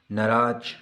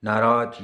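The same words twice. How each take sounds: First: नाराज with a short first a and a ch ending, nə-raach; wrong pronunciation. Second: नाराज with a long first aa and a clear j ending, naa-raaj; correct pronunciation. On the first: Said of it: "ये गलत है". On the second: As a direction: say नाराज properly, ending in a voiced j. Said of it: "ये सही है". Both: Shown as a demonstration.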